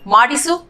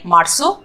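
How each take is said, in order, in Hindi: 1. बीच का 'i' स्वर पूरा बोला जाता है। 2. बीच का 'i' स्वर छोड़ दिया जाता है।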